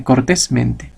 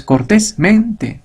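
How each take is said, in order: First: "cortésmente" with the accent on TÉS, "mente" lighter; stress on CORTÉS. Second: "cortésmente" split in two, with MEN stressed separately; stress on MENTE. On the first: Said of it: "sino es simplemente". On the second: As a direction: break after "cortés" and hit "mente" as its own word. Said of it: "aquí ya no es". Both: Shown as a demonstration.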